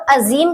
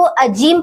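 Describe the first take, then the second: First: First "अजीम" with a buzzing z, "azeem"; correct z sound. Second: "अजीम" with a hard j, "ajeem"; z turned to j. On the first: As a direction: say "अजीम" as a-zeem. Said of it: "अजीम लफ्ज पढ़ा जाएगा". ("अजीम" में नुक़्ते वाला "ज़") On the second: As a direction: say "अजीम" wrongly as a-jeem. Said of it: "तो अजीम नहीं पढ़ा जाएगा". ("अजीम" में "ज़" की जगह "ज") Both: Shown as a demonstration.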